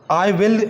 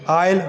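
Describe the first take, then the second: First: Both words are said in full. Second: The two words merge into one syllable. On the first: The speaker calls it wrong. "करीबन हमेशा आई विल नहीं बोलते वो जो natives हैं" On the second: The speaker calls it right. "इन सब की contracted वाली फॉर्म्स वो यूज़ करेंगे"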